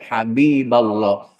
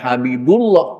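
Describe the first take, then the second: First: The vowel before 'llah' is an 'a'. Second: The vowel before 'llah' is a 'u'. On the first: The speaker calls it right. "maka harus dibaca nasab" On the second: The speaker calls it wrong.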